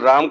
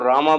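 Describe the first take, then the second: First: The name ends without a final vowel. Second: The name ends with a long 'aa' vowel. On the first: The speaker calls it right. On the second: The speaker calls it wrong.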